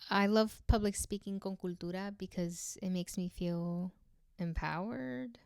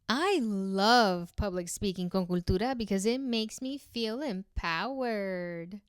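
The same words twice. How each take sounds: First: It sounds confused, rising like a question. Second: It sounds sarcastic and fake, not genuine. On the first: The speaker is unsure about the claim. "If I were to say that confused" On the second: The speaker does not really mean it. "Now let's do sarcastic. ... it sounds fake"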